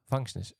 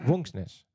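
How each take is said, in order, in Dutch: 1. Hij begint met een V-klank en een open a. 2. Hij begint met een W-klank en een afgeronde o. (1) "als je het zonder tekentjes leest" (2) "Maar dan zeggen ze... Want de V is een W"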